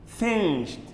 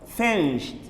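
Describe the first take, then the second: The two takes are said the same way.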